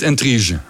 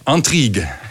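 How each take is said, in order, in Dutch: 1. Het woord wordt uitgesproken met Nederlandse klanken. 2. Het woord wordt uitgesproken met Franse klanken. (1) "Niet intrige" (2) "weet je hoe de Fransen het uitspreken?"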